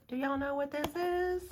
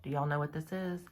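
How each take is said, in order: First: Much higher silly voice, then a high sigh; squeaky put-on voice. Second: Said in the usual way. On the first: Teasing her viewers, repeating the question in a squeaky voice. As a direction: ask again in a squeaky cartoon voice.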